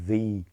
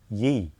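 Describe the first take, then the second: First: The word begins with a th sound. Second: The word begins with a y sound. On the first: The speaker calls it right. "which actually should be read as the old whatever" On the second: The speaker calls it wrong. "most people in Britain also will think you have to pronounce that as ye. Well, that's not correct"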